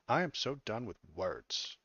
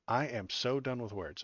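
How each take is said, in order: First: It is said in a put-on white woman voice. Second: It is said in his normal voice.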